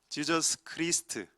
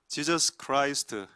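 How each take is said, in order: First: The vowel in Christ sounds like ee. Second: The vowel in Christ sounds like eye. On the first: The speaker calls it wrong. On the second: The speaker calls it right.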